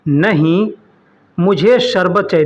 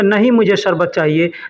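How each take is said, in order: First: There is a pause after the first word. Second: The words run together with no pause. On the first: Not that thing; I want sherbet. The speaker calls it right. "ऐसा जुमला बोलने के लिए थोड़ा-सा बोलना बीच में रुकना पड़ता है" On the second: I do not want sherbet. The speaker calls it wrong. "अगर हम डायरेक्ट बोलेंगे"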